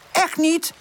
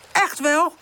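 First: High, heated contradiction; pitched-up quarrelling; squabbling denial. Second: High contradiction with rising end; pitched-up quarrelling; squabbling comeback. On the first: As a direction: deny it nose to nose. Face-to-face quarrel, Pip denies. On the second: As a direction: insist right back at your rival. Face-to-face quarrel, Woezel insists. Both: A narrator's reading.

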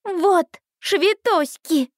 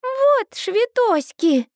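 First: Put-on high, slow toddler barking "Вот швитоськи!" like a general; a little girl commanding an army; booming warrior king. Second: Put-on high, slow little girl insisting on "швитоськи"; a tiny child putting her foot down; stern toddler voice. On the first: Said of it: "рявкает она голосом полководца". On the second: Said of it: "Минни грозно сдвигает брови".

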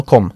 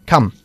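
First: "come" said with a rounded o, like "com"; mispronounced "come". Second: "come" with a short u sound, "kum"; correct "come". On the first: Teacher mimics the student's slip, mispronounced "come" as "com". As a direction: say "come" wrongly with an o vowel. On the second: Teacher correcting the student's vowel, correctly pronounced "come" with uh. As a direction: model "come" with an open uh vowel. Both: Shown as a demonstration. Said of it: "no come".

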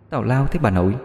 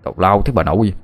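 First: Eerie echo from inside the wardrobe; girl's voice echoing. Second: Mild annoyed curse at the wardrobe; cursing. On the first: Ghostly girl's voice mimics Minh from the wardrobe. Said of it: "cái giọng con gái ... nói y chang". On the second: Minh curses at the wardrobe, mildly annoyed. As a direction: swear at the knocking cupboard. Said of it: "miệng lại chửi". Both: Acted.

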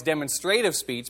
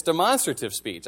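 First: "demonstrative" said DEM-on-stray-tive; students' pronunciation. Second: "demonstrative" said de-MON-stra-tive; teacher's pronunciation. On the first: Students correcting their teacher, "demonstrative" said as DEM-on-STRAY-tive. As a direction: stress the first syllable of "demonstrative", with STRAY in it. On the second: Teacher insisting to his students, "demonstrative" said as de-MON-stra-tive. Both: Retold or imitated. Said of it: "they said I was pronouncing it wrong".

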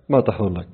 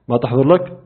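First: ما تحضر لك. repeated quieter, falling flat at the end; ما تحضر لك. said low and falling, no question. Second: ما تحضر لك؟ asked with a rising end on لك; ما تحضر لك؟ with questioning upturn at the end; asking question. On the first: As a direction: drop it like a statement, softer. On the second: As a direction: lift لك into a real question. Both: Real, not acted.

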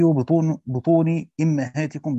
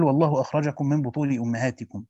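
First: بطون أمهاتكم said as bituni immahatikum, i vowels; kasra reading. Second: Said in the usual way. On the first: Shown as a demonstration. Teacher demonstrates al-Kisai's reading with kasra on the hamza. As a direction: say بطون with bi and أمهاتكم with imm, slowly. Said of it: "بكسر الهمزة". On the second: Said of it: "قرأ الكسائي".

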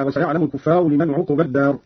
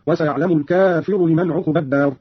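First: Said in the usual way. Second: الكافر said "al-kaafiru", long a, short i; long a after k, single f in الكافر; singular kafir form. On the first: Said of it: "قرأ قالون بفتح الكاف وألف بعدها". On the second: Shown as a demonstration. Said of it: "قرأ قالون بفتح الكاف وألف بعدها وكسر الفاء".

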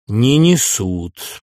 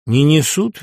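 First: Very slow drawn out Не несут; a slow echo repeating his words; slow mocking repeat. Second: Said in the usual way. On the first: Nunan repeats slowly, mocking.

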